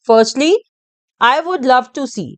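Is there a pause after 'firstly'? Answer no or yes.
yes. There is a pause after the first word. The speaker calls it right. "हम उसको read करना चाहते हैं ऐसे"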